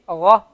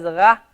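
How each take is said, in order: First: "ra" said with rounded "ro" vowel from the throat; round ghain. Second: "ra" said with an open "a", unrounded; the wrong, unrounded "ra"; wrong flat ra. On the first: Teacher giving students the correct round "ra". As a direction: round the lips so "ra" becomes "ro". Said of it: "but it has to be". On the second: Teacher warning students off the flat "ra". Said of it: "you cannot pronounce it as". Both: Shown as a demonstration.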